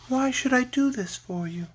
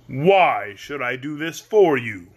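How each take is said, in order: First: Much higher, airy lady; sweet lovely lady. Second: Slow, weighty question; the great head Oz. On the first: Lady Oz challenging the Scarecrow, sweet. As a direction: ask it lightly, high and gentle. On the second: Great head challenging the little girl, slow and imposing. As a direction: draw it out like a mighty wizard. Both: A narrator's reading.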